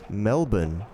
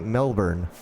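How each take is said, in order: First: It is said with an Australian accent. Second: It is said with a non-Australian accent. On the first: "if you have an Australian accent, you would pronounce that word Melbourne" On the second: "If you didn't speak like an Australian, ... you'd say Melbourne"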